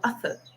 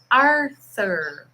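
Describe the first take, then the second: First: The R sound in the name is dropped. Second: The R sound in the name is pronounced. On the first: This is how the British man actually said it. "Só que ele falou Arthur, Arthur. Porque o britânico tem essa mania de comer o R" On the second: This is the name the man actually meant. "ele estava falando, my name is Arthur"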